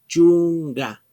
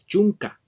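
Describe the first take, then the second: First: The ending has a voiced g sound. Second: The ending has a hard k sound. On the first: The speaker calls it right. "sino se pronuncia chunga" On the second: The speaker calls it wrong. "no se pronuncia chunca"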